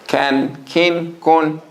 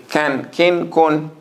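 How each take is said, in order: No difference in how they are said.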